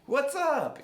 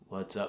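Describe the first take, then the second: First: It is said with lively, excited energy. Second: It is said flat and mechanical, like a robot. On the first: "you get all excited" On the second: "you're not a robot"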